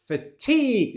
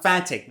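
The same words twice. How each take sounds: First: "Fatigue" with the second syllable higher and stressed; "Fatigue" said fa-TEEG. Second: "fatigue" wrongly stressed on the first syllable. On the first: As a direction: hit the end of "Fatigue", long ee vowel. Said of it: "the stress on the second syllable". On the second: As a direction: say "fatigue" as FAT-ig. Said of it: "It's not fatigue". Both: Shown as a demonstration.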